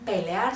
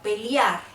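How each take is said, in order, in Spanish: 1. La palabra se dice de forma sencilla, sin sonido 'i' añadido. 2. La palabra se dice con un sonido 'i' añadido. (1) "No dicen" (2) "Se destaca mucho por incluir la I en las palabras"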